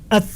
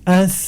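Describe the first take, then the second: First: The final sound is pressed hard and stops sharply. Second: The final sound is soft, with flowing breath. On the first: The speaker calls it wrong. "Ketika dibaca dengan kuat, ditekan dengan kuat" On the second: The speaker calls it right. "ada aliran nafas yang mengalir"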